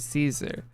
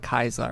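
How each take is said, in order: First: The name begins with an s sound. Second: The name begins with a k sound. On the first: The speaker belongs to the NCR. "any of the N C R ... they'd all say Caesar" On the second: The speaker belongs to Caesar's Legion. "everyone in like the Caesar's Legion, they would say Kaiser"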